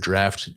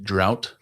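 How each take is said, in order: First: The vowel sounds like the one in 'cat'. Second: The vowel sounds like the one in 'out'. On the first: The speaker calls it right. "I pronounced the word draft" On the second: The speaker calls it wrong. "I pronounced the word draft drought"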